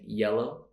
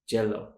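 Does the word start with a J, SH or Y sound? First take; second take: Y sound; J sound. First: It starts with a Y sound. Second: It starts with a J sound. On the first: The speaker calls it right. "instead of saying yellow" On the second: The speaker calls it wrong. "they might say jello"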